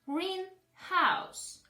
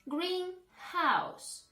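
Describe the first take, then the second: The two takes are said the same way.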